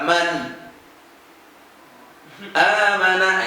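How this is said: A long pause comes between the two words. The speaker calls it wrong. "Kalau terlalu lambat"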